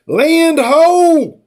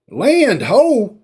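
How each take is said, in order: First: Raised mock call of land sighted, pitched up. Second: Said in the usual way. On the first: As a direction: shout it out across the deck.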